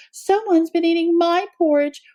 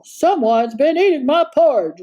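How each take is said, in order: First: Mild wail, higher mother bear; a touch of a wail, understated; wailing Mama Bear. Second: Understated roar, lightly voiced father bear; a mild mock roar over porridge; roaring Papa Bear. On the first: Mama Bear mourns her porridge, mild wail. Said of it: "wailed Mama Bear". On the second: Papa Bear sees his porridge eaten, mild roar. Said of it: "roared Papa Bear". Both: A narrator's reading.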